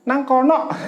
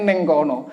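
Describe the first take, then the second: First: The first word is said with an a vowel. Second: The first word is said with an e vowel. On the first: This is how people in the ngapak region say it. "Kalau kalau daerah ngapak" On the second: This is how people in this region say it. "daerah kini neng kono"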